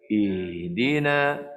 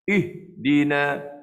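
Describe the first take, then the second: First: The h sound flows smoothly into the next syllable. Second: The voice stops sharply after the h sound. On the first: The speaker calls it right. "biarkan suara itu berlalu. Begini sebut yang betul" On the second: The speaker calls it wrong. "terputus suara macam tu. Itu kurang tepat"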